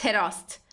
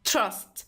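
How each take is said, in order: First: A short vowel separates the t and r. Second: The t and r sounds are joined directly. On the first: The speaker calls it wrong. "not kerast, terast" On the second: The speaker calls it right. "it's crust, trust"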